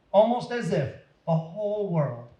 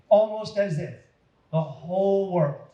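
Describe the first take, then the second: No difference in how they are said.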